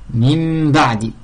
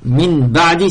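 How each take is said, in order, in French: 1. Le nasal devant le b est un m. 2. Le nasal devant le b est un n net.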